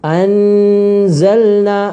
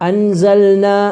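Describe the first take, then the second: First: The n is pronounced fully and clearly. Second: The n is rushed over quickly. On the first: "നൂന് വെളിവാകുന്ന രൂപത്തിൽ പാരായണം ചെയ്യരുത്" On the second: "പെട്ടെന്ന് ഓതിപ്പോകുന്ന അവസ്ഥയും ഉണ്ടാകരുത്"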